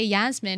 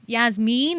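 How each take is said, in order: First: The name is said with an English pronunciation. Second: The name is said with a Persian pronunciation. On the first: This is how people say it in England. "we just say Yasmin in, in England" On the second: This is the original Persian way of saying it. "Yasmin is more Persian pronunciation"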